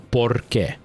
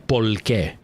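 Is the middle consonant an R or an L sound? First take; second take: R; L. First: It has an R sound in the middle. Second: It has an L sound in the middle.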